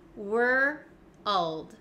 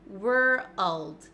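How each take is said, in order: First: The word is split into two slow parts. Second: The word is said quickly as one syllable. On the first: The speaker calls it wrong. "it's not the correct way to pronounce it" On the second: The speaker calls it right. "try to get it faster and faster"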